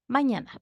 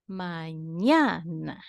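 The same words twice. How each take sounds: First: Said in the usual way. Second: "Mañana" slowly, drawn out on the "ña"; stressed middle syllable. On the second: Shown as a demonstration. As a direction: stretch "Mañana", leaning long on "ña". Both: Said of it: "is also a word considered grave".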